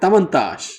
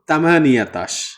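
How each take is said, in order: First: The word is contracted into three syllables. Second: The word is said in five full syllables. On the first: The speaker calls it right. "এটা হবে তামান্তাশ" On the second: The speaker calls it wrong. "অনেকে বলে তামানিয়াতাশ, ওকে, ওই জিনিসটা ভুল হবে"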